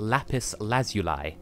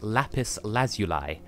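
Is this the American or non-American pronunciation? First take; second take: non-American; non-American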